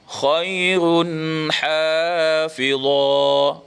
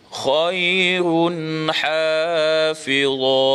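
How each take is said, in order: The two takes are said the same way.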